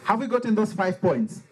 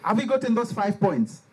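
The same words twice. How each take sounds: The two takes are said the same way.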